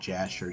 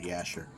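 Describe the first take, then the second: First: The name begins with a J sound. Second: The name begins with a Y sound. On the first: This is the modern English way of saying it. "how we say it" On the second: This is the original Hebrew way of saying it. "really is the uh, Book of Yasher"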